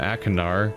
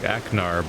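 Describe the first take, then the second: First: The name has a K and an extra vowel. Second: The name has a K sound, no extra vowel. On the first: This follows the written spelling. "I've been calling him Akinar because that's how it's spelled" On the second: This would be an acceptable compromise. "I'd even maybe ex accept like Aknar"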